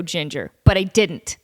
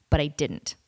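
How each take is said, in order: First: Said in the usual way. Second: Breathy whispered repeat, dropped low; whispered aside. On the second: Real, not acted. Host whispering a repeat to listeners, playful aside. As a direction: whisper it to yourself like a private joke.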